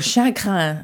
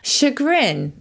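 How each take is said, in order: First: It is pronounced the French way. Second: It is pronounced the English way.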